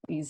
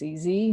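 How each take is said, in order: First: The letter Z is said the British way. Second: The letter Z is said the American way. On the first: "as we say in the U K" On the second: "being American, it's E Z"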